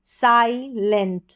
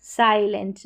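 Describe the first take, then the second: First: silent stretched, साइ clear like 'sigh'; slow model word. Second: Said in the usual way. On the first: Shown as a demonstration. Teacher models the word for students, slowly. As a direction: drag out silent. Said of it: "आई को यहाँ पर आई पढ़ेंगे".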